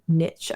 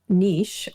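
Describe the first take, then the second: First: Niche is said with the American pronunciation. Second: Niche is said with a non-American pronunciation.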